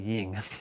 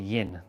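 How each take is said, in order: First: The word ends with an ng sound. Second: The word ends with an n sound. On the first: The speaker calls it wrong. "not ying" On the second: The speaker calls it right. "it's actually yin"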